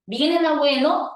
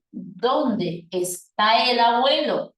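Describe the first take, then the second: First: ¿Viene el abuelo? rising at the end as a yes-no question; tono ascendente. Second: ¿Dónde está el abuelo? slow, falling at the end; tono descendente. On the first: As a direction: lift the pitch on "abuelo". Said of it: "será un tono de tipo ascendente". (pregunta total, "abuelo" sube al final) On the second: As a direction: draw it out and drop on "abuelo". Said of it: "pero será descendente". (pregunta lenta, "abuelo" baja al final) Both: Shown as a demonstration.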